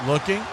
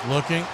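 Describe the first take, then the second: No difference in how they are said.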